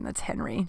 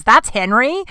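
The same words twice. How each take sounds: First: Low, soft mumbled statement; sheepish admission. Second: Higher, rising disbelief; incredulous question. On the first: Cat owner admits it to neighbor, sheepish. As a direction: own up to it quietly. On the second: Neighbor can't believe it's Henry, incredulous. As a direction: echo it back, swooping up at the end. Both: Retold or imitated.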